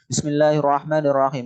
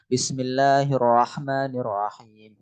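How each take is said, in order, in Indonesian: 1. Dibaca cepat tapi jelas. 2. Dibaca dengan tempo sedang dan merata. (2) "itu yang biasa murattal"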